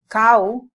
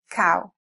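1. La vocal se dice con sonidos del español. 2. La vocal se dice con sonidos del inglés.

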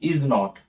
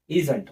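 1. हे दोन वेगळ्या पूर्ण शब्दांसारखे म्हटले जाते. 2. हे एका आकुंचित शब्दासारखे म्हटले जाते. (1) "असं जर उच्चार केला तर काय होईल" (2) "ह्याच्यातले 2 शब्द गेले ना, ओ आणि एन"

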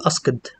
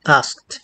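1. النهاية ليست صوت T واضح. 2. النهاية صوت T واضح. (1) "ما حدش يقول asked" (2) "كلمة asked برضو دي هنا بتنطق تي"

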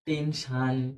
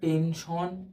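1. শেষ অংশটা 'shan' এর মতো করে বলা হয়। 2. শেষ অংশটা 'shon' এর মতো করে বলা হয়। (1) "আবার যারা বলেন টেনশান" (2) "তো আপনারা কি করেন?"

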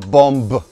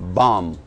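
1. Конечный звук b произносится после m. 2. Слово заканчивается на m, без b. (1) "Мы не говорим bomb" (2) "We say bomb"

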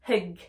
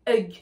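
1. Le mot commence par un son h soufflé. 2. Le mot commence sans son h. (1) "Je dis hug, hug" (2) "Je ne dis pas hug, hug"

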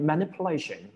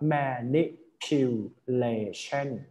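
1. พูดลื่นไหลด้วยความเร็วปกติ 2. พูดช้า ทีละพยางค์ (1) "คำนี้มันต้องอ่านเป็น" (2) "คือต้องแยกอย่างนี้เลย"

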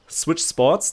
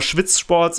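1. Das erste Wort beginnt mit einem klaren 'sw'-Laut. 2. Das erste Wort beginnt mit einem 'shv'-Laut. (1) "Wenn man es einfach nur ausspricht, Switch Sports, dann geht's" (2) "dann ist es immer Schwitz Sports"

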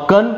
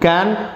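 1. इस शब्द में एक छोटा, रिड्यूस्ड स्वर है। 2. इस शब्द में एक पूर्ण, खुला स्वर है। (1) "कॉमनली ... कन पढ़ते हैं" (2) "जब जोर डालकर पढ़ते हैं ना, जिस पर स्ट्रेस डालते हैं ... ये कैन हो जाता है"

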